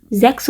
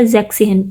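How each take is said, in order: First: Said in the usual way. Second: "زیک سہن" as zek plus tsehn; shortened six in sixteen. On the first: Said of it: "لیکن یہ بولتے ہیں". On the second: Shown as a demonstration. Teacher showing how sixteen is said, "زیک سہن" run together. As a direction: say "زیک سہن" with six's final S merged into the next syllable. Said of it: "لیکن یہ بولتے ہیں زیک سہن سولہ کے لیے".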